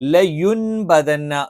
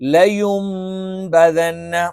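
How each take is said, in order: First: The sound before the b is an n. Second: The sound before the b is an m. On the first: This is how it is written. "ശരിക്ക് ലയുൻബദന്ന എന്നാണ്" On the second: This is how it is recited. "അത് നമ്മൾ ഓത് എന്താണ്? ... ആ നൂനിനെ നമ്മൾ മീമാക്കി"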